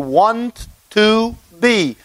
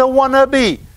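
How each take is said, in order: First: Three separate words are said in full. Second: The words run together quickly into one. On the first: "It's actually want to be" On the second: "when you say it quickly, it's a wannabe"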